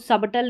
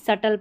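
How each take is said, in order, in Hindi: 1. बीच में b की ध्वनि बोली जाती है। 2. बीच में कोई b ध्वनि नहीं बोली जाती है। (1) "इसको सबटल नहीं" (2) "सटल पढ़ना है"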